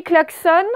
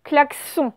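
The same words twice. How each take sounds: First: "klaxon" ending in a sounded N, like "klak-sonn"; English-style ending. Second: "klaxon" with a French nasal "on", final N silent; as it is written. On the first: Teacher giving pupils the spoken form, "klaxon" with sounded final N. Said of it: "on le prononce un peu à l'anglaise". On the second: Teacher showing pupils the spelling, "klaxon" with nasal "on" ending. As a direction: end "klaxon" on the nasal vowel, "klak-son". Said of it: "mais en fait, vous allez écrire klaxon". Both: Shown as a demonstration.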